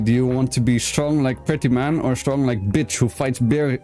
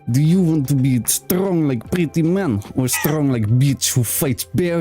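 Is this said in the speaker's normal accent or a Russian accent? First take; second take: normal; Russian. First: It is said in the speaker's normal accent. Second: It is said in a put-on Russian accent.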